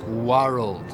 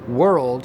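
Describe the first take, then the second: First: The vowel is lower before the r. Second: The vowel has its modern, higher quality. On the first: This is how it was said in Shakespeare's time. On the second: This is the modern pronunciation.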